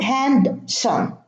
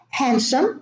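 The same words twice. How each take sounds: First: The D sound in the middle is pronounced. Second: The D sound in the middle is silent. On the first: The speaker calls it wrong. "it's not handsome" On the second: The speaker calls it right. "the same thing"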